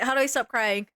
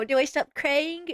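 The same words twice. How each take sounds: First: Said in the usual way. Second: Apology video impression. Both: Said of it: "Every apology video be like".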